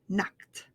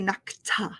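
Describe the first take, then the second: First: The word ends with a short, quick T sound. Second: The word ends with an added extra syllable. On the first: The speaker calls it right. "It's a real quick sound at the end there" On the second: The speaker calls it wrong. "We're not going to say knockta"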